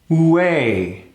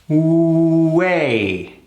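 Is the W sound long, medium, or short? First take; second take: medium; long. First: The W sound is held half as long. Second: The W sound is held long. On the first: "cut that length in half" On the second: "a long W sound into that three"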